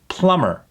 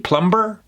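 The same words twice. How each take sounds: First: The B sound in the middle is silent. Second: The B sound in the middle is pronounced. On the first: The speaker calls it right. "That B, gone" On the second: The speaker calls it wrong. "Would he pronounce that B"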